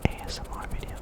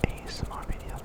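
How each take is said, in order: Both takes have the same delivery.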